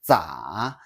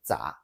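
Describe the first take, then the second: First: The pitch dips low and then rises again. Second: The pitch stays low without rising again. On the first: "The full tone is" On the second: "The daily use is"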